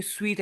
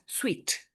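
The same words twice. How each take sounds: First: "sweet" broken into two syllables, su-weet; wrongly split in two. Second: Said in the usual way. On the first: Shown as a demonstration. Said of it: "we are not pronouncing sweet as". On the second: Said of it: "No, we pronounce this as sweet".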